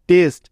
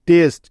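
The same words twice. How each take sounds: The two takes are said the same way.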